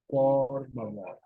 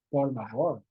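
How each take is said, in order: First: "por favor" said slowly, each syllable clear; slow teacher model of "por favor"; slow demo pronunciation. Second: Said in the usual way. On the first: Shown as a demonstration. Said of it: "pronounce them a little bit slowly".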